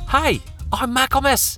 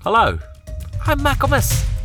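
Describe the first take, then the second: First: It is said in a different character voice. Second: It is said in an ordinary voice.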